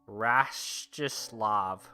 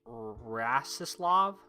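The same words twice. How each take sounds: First: The first S sounds like 'sh'. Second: The first S sounds like a plain 's'. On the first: The speaker calls it wrong. "First S is not pronounced as S H" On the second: The speaker calls it right. "but rather just S"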